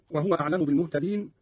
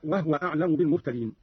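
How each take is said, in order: First: Said in the usual way. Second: وهو in two syllables, wah-wa; vowelless ha. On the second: Shown as a demonstration. Teacher shows Qalun's reading, وهو pronounced wahwa. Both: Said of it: "قرأ قالون بإسكان الهاء".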